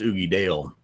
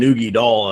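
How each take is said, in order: First: The last syllable sounds like dale. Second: The last syllable sounds like doll. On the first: The speaker calls it right. "I'm pretty sure it's Oogie Dale" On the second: The speaker calls it wrong. "Now you keep saying Oogie Doll"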